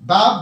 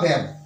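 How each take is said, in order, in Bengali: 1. এই স্বরধ্বনিটি খোলা 'ah' ধ্বনি। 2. এই স্বরধ্বনিটি 'cat' শব্দের মতো চ্যাপ্টা 'a' ধ্বনি। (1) "বয়াকার ব" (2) "বৈজফলা আকার ব"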